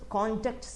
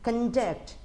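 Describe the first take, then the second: First: The stress is on the first syllable. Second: The stress is on the second syllable. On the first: It is a noun, as in a character certificate. "ഇതുപോലെ തന്നെയാണ്" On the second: It is a verb, as in conducting a program. "Conduct എ programme എന്നുള്ളത് verb ഫോമാണ്"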